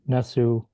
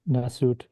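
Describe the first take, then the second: First: The word ends without a final t sound. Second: The word ends with a final t sound. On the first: The speaker calls it right. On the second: The speaker calls it wrong.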